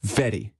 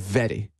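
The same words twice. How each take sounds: Both takes have the same delivery.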